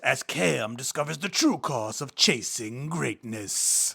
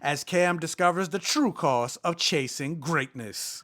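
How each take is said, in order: First: It is read in a dramatic movie-trailer voice. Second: It is read in an ordinary, plain voice.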